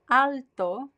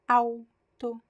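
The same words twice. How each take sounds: First: The first syllable ends with a clear L sound. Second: The first syllable ends with a weak U sound. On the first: The speaker calls it wrong. "It's not alto" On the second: The speaker calls it right. "it's alto, au"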